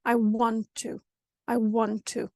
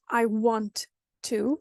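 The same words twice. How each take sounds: First: "want to" joined with one longer t; connected "I want to", no gap between the t's; merged consonant. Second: WANT and TO said apart, both t's; slow "I want ... to", pause before "to"; word-by-word "I want to"; separate words. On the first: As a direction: link WANT TO on a single held t. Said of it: "combine it into one consonant". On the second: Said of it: "But first in English". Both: Shown as a demonstration.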